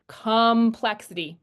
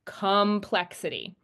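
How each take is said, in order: First: Complexity said slowly, stress on plex; slow demo. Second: Complexity said slowly; slow demo. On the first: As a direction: stretch Complexity to show the stress. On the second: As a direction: draw out Complexity, stress on plex. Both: Shown as a demonstration.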